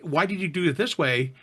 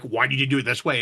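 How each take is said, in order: First: It is asked in a friendly, curious tone. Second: It is asked in a challenging, accusing tone.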